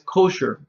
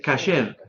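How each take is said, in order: First: The first vowel is an 'o' sound. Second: The first vowel is an 'a' sound. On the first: This is the Yiddish pronunciation. The speaker calls it wrong. "no es kosher" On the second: This is the Hebrew pronunciation. The speaker calls it right. "es kasher"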